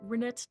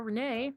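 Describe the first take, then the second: First: The name ends with a pronounced T sound. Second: The name ends without any T sound. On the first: The speaker calls it wrong. "I just said silent T and then I proceed to see the T" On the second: The speaker calls it right. "I'm gonna say it's the silent T"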